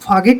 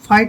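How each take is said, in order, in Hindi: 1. t से पहले g की आवाज़ बोली जाती है। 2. t से पहले g की कोई आवाज़ नहीं बोली जाती है।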